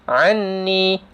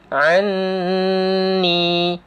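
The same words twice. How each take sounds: First: The doubled n is nasalized but held briefly. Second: The doubled n is nasalized and held long. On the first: The speaker calls it wrong. "Ada dengung tapi tak cukup dua harkat" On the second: The speaker calls it right. "Jadi dua harkat dengung"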